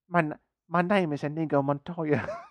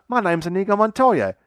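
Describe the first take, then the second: First: It is said in a weak British accent. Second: It is said in an Australian accent. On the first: "that weak British accent" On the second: "now he's Australian"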